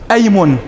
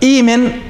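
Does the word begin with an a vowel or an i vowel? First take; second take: a vowel; i vowel. First: The word begins with an a vowel. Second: The word begins with an i vowel. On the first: The speaker calls it right. "تقول أيمن" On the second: The speaker calls it wrong. "لا تقول إيمن"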